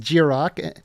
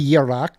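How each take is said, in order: First: The name is said with a plain English pronunciation. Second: The name is said with a Scandinavian pronunciation. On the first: "but it is Jirok" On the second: "if you want to do the uh, Scandinavian pronunciation"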